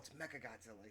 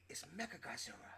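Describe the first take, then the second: First: It is said in a plain English accent. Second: It is said in a Japanese-style accent. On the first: "instead of saying like" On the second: "he goes"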